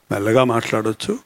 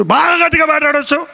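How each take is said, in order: First: Very low, hushed voice; speaking softly. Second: Raised, high-pitched calling voice; very loud. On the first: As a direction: turn the volume right down. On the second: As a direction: turn the volume all the way up. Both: Shown as a demonstration.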